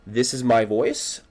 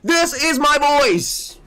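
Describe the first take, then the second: First: The voice is small, quiet and subdued. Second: The voice is loud, high and excited. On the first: "Really, really, really small. Really not talkative" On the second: "this is my voice when I'm talking about a goal"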